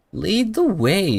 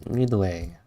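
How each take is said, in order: First: High, slow, sing-song imitation of a small girl; playful mock echo of the character, higher and slower; mimicking the character. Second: Said in the usual way. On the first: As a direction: copy the game character's cute line, slow and high. Echoing the game character's line.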